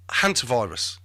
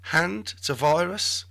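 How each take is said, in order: First: Said in the usual way. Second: "Hand to virus" split into three words, slow, rising; "Hand to virus" drawn out like a question; jokey mispronunciation. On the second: Shown as a demonstration.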